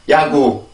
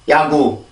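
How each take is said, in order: First: It is said softly, with little air. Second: The same.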